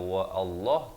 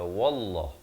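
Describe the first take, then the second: First: A glottal stop separates wa from Allah. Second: Wa runs straight into Allah without a break. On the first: The speaker calls it wrong. "Jangan dibaca wa Allah" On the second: The speaker calls it right. "tapi baca wallah"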